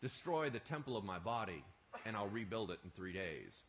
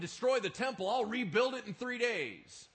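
First: Calm explanation. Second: Loud and high, a defiant claim; bold proclamation. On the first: Shown as a demonstration. What did he mean?. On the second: Retold or imitated. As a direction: throw it out boldly to the crowd. Bold claim the crowd mocks.

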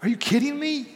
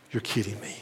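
First: High, loud disbelief at the price; shocked outrage. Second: Said in the usual way. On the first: Retold or imitated. Husband reacting to his wife's milk purchase, outraged and high.

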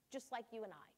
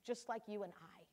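Both takes have the same delivery.

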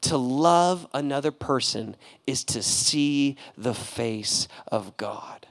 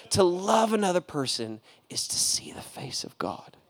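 First: Slow, fading, softer reading; quoting the musical line, slow and softer; reverent quote. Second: Breathy hushed whisper; repeating the line as a reverent whisper. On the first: Retold or imitated. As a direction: let the words sink in. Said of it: "And he says". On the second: Acted. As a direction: breathe the words like a secret.

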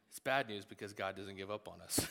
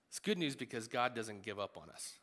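First: "bad" said lower and wry; stress on bad. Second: "good" said brightly and falling; stress on good. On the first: "bad" said wryly to the congregation. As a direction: drop lower and land on "bad". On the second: "good" said as welcome news to the congregation. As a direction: lean on "good" with a lift. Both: Shown as a demonstration. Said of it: "Good news, bad news".

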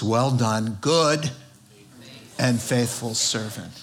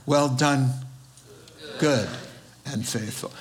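First: Said in the usual way. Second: "good" set apart by pauses; stress on GOOD. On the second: Shown as a demonstration. Preacher emphasizing a word from the verse, stressing "good" between long pauses. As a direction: pause before "good" and let it stand alone. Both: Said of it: "Let me emphasize a word there".

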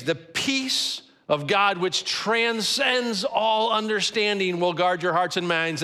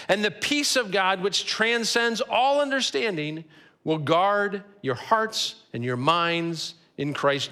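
First: Slow, weighty, stressing "transcends" and "guard"; emphatic slow repeat. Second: Measured scripture reading. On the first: Pastor repeating the promise to the congregation, slow and emphatic. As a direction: lean on "transcends", then land hard on "guard". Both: Shown as a demonstration. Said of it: "These verses end with that phrase".

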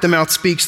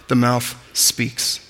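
First: Said in the usual way. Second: "the mouth speaks" drawn out slow and soft; solemn, softer slow emphasis; slow, emphatic close. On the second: Shown as a demonstration. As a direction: let each word land, very slowly. Same phrase said slowly for emphasis.

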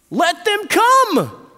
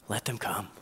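First: High, loud, drawn-out order; annoyed, forceful shout; indignant command. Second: Soft, low, tender command; hushed, low welcome; gentle invitation. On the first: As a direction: shout it out indignantly, stretching the words. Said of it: "it says that he was indignant". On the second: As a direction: say it quietly and reassuringly. Jesus gently welcoming the children. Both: Acted.

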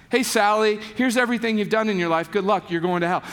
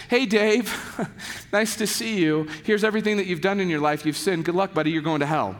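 First: Quick, offhand rundown of sins; mock condemning lecture. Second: Breezy, fast rundown of sins; mock condemning lecture. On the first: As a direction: toss off the damnation like small talk. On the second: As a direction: rattle off the verdict like a casual greeting. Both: Shown as a demonstration. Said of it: "the lectures would probably look a little bit like this".

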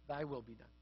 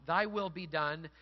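First: Low, hushed, resigned pronouncement; God's final concession. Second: Slow, measured declaration; submission to God. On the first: God answers people in the end, hushed concession. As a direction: hand it back softly and low. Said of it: "to whom God says in the end". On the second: Those who say to God, slow submission. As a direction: yield to God, slowly and firmly. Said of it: "Those who say to God". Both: Retold or imitated.

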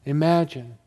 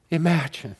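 No difference in how they are said.

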